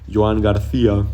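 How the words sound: The name is said with an imitated Spanish accent.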